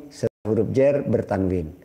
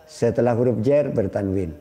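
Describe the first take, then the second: The two takes are said the same way.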